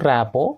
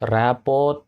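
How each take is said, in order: First: The word ends without any t sound. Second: The word ends with an audible t sound. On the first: The speaker calls it right. "ర్యాపో ర్యాపోర్ట్" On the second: The speaker calls it wrong. "ర్యాపోర్ట్ కాదు"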